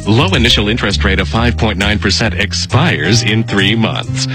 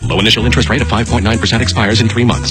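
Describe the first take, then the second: First: It is read slowly. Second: It is read very fast.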